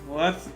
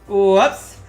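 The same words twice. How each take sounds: First: It is said in a flat, bored monotone. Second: It is said with lively, varied pitch. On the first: The speaker calls it right. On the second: The speaker calls it wrong.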